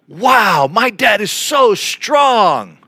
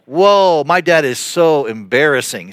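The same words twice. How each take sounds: First: Drawn-out, higher, amazed "Wow, my dad is so strong"; awed wow. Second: Embarrassed whoa. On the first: Kids marveling at their dad, slow and amazed. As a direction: sound like a kid truly impressed by his dad. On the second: Kids mocking their embarrassing dad, mild cringe. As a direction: sound like a kid cringing at his dad. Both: Pretend. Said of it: "the intonation matters".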